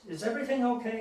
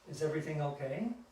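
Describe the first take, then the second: First: It is said in a firm, stern tone. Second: It is said in a gentle, soft tone. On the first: There could be trouble if things are not okay. The speaker calls it right. "in a very firm voice" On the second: It is only a polite, harmless inquiry. The speaker calls it wrong. "this kind of gentle, kind"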